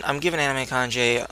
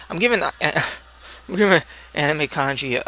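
First: Kanji said as "Kan-jay", ending in "ay"; "Anime Kanji" with Kanji rhymed with "day"; Kanji mispronounced. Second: Kanji said "Kan-jee", ending in a clear "ee"; "Anime Kanji" with Kanji ending in "ee"; Kanji corrected. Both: Real, not acted.

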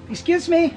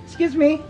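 The two takes are said the same way.

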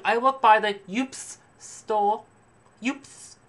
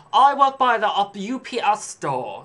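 First: High, drawn-out snob, "ups" said as one word; mock a haughty clerk mangling U P S into "ups"; snobby saleswoman. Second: High, loud, slow put-on snob, U P S as letters; mock a haughty clerk spelling out U P S; snobby saleswoman. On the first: Haughty clerk boasting, saying "ups" as a single word. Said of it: "She's like". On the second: Haughty clerk boasting, saying U P S letter by letter. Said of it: "you're a stuck-up snob working in a clothing store".

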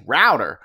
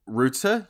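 First: "router" said as "rowder"; slow, louder American "router", rhyming with louder; "router" as ROW-der with a tapped t; American pronunciation. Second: "router" said as "rooter"; "router" as ROO-tuh, lifted at the end; British pronunciation. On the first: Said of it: "you say router". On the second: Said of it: "I say". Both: Shown as a demonstration.

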